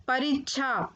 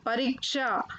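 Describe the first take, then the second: First: परीक्षा said "parichchha"; mispronounced परीक्षा. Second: Said in the usual way. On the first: Shown as a demonstration. Teacher showing children the error, परीक्षा said "parichchha". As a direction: turn the ksha of परीक्षा into chha. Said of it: "अशुद्ध शब्द मैंने रखे हैं". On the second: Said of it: "फिर उनका शुद्ध उच्चारण".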